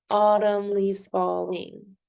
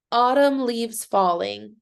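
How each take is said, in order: First: Autumn leaves falling slowly, in five even beats; syllable by syllable. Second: Said in the usual way. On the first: Shown as a demonstration. Teacher helping students count, Autumn leaves falling syllable by syllable. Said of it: "Can you count the syllables in that?". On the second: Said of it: "So let's do that".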